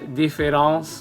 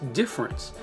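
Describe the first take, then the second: First: The middle vowel is pronounced: three syllables. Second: The middle vowel is dropped: two syllables. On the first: The speaker calls it wrong. "Notice I didn't say difference difference, you know, with my, my French accent going on" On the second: The speaker calls it right. "It's just difference"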